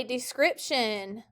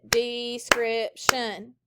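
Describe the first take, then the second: First: Said in the usual way. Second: "description" very slowly in three separate beats; syllable by syllable. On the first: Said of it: "Everyone say description". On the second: Shown as a demonstration. Teacher has the class clap it, "description" slowly syllable by syllable. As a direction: stretch out each syllable of "description". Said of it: "Clap it".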